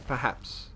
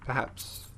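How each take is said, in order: Both takes have the same delivery.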